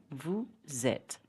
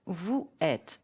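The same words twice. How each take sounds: First: VOUS ÊTES linked with Z, vou-zet; Z sound starting "êtes" after "vous"; liaison. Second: VOUS ÊTES with no Z, vou et; no liaison. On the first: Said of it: "with the right pronunciation". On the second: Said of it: "So with the right pronunciation". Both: Shown as a demonstration.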